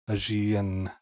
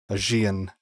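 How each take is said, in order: Both takes have the same delivery.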